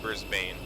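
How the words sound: It is said the American way. The speaker calls it wrong. "I used to call it Brisbane... because it's incorrect"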